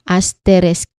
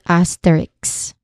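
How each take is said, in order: First: The word ends with the sounds s then k. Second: The word ends with the sounds k then s. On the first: The speaker calls it right. "it ends in sk" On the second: The speaker calls it wrong. "not ks"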